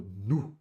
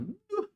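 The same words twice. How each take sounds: First: Nu said low and pleased, a falling sound of approval; approving nu. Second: Nu jumps very high, a squeaked groan of disapproval; bad pizza, high-pitched Nu of disgust. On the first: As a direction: give Nu a low appreciative fall. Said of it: "até a entonação é diferente". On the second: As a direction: push Nu way up in pitch like something awful. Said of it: "Até é um pouquinho mais agudo". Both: Shown as a demonstration.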